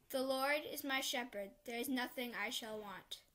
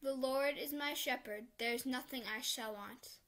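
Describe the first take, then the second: No difference in how they are said.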